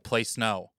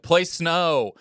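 First: It is said quietly, not yelled. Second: It is yelled loudly.

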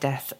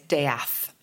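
First: The name is said exactly like the word death. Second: The name is said in a changed, unusual way. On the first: The name sounds like the word for dying. "instead of" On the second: The bearer avoids sounding like the word death. "they change the pronunciation"

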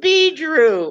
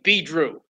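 First: It is said in a prim old-lady voice. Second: It is said in a tough street-style voice. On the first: The name belongs to an old lady. "That sounds like an old lady's name" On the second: The name belongs to a tough street guy.

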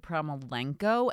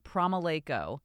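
First: The name is said with an added n sound. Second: The name is said without an added n sound. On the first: The speaker calls it wrong. "lots of people like to add the letter N and they say" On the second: The speaker calls it right. "If you just say it phonetically and just ignore the U, then you're fine"

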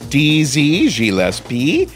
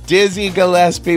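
First: It is said in a French accent. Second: It is said in a plain English accent.

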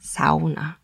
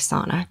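First: The word is said in a Finnish way. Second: The word is said in an English way. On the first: The speaker calls it right. "Just say sauna. Just say it with me" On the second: The speaker calls it wrong. "don't you dare say sauna"

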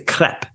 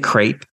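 First: The vowel rhymes with yep, French style. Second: The vowel rhymes with grape, American style.

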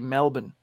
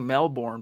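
First: It is pronounced the Australian way. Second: It is pronounced the American way. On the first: "but I think they say Melbourne" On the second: "Americans say Melbourne"

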